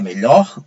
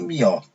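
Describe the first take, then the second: First: The word is pronounced in its standard form. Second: The word is pronounced in a colloquial form. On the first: This is the word as normally written. "Para melhor" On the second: This is how the common people say it. "dizem melhor"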